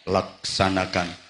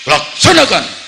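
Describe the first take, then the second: First: The word is said calmly and relaxed. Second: The word is barked out sharply and loudly. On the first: The higher-ranked official speaks casually. "Bupati nyantai" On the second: The ceremony commander snaps back as the ceremony requires. "saya digetaki meneh"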